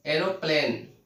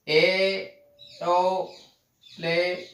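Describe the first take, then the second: First: Said in the usual way. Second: "aeroplane" very slowly, each syllable drawn out and set apart. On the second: Shown as a demonstration. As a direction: stretch "aeroplane" into three long, separate beats. Teacher breaks word into syllables. ("Aeroplane" का हर हिस्सा खींचकर, अलग-अलग)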